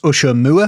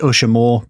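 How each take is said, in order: First: It does not sound like 'usher more'. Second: It sounds like the phrase 'usher more'. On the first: This is how the name is properly said. "which should be pronounced Usher Moor" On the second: It sounds like an order to usher more. "I pronounce it Usher Moor because it sounds like something that your boss would say if you worked in a cinema"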